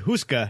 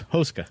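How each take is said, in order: First: The first vowel sounds like 'oo'. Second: The first vowel sounds like 'oh'. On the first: The speaker calls it wrong. "we say Huska" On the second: The speaker calls it right. "but it's Hoska"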